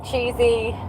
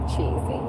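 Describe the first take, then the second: First: Said in the usual way. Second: "Cheesy." whispered under her breath; whispered aside. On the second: Real, not acted. Repeating the verdict under her breath.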